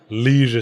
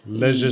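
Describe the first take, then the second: First: The first vowel is long, like 'lee'. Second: The first vowel is short, like 'leh'. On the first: The speaker calls it wrong. "the original American pronunciation" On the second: The speaker calls it right. "I prefer the shorter vowel sounds"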